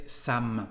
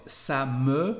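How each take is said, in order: First: Ça me said as ça m', e gone; casual French ça me; dropped e. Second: Said in the usual way. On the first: Shown as a demonstration. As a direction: clip me to m in ça me. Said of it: "we just say ça me". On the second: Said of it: "instead of ça me".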